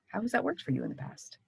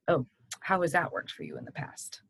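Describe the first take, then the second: First: It sounds sincerely curious and open. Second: It sounds skeptical and disapproving.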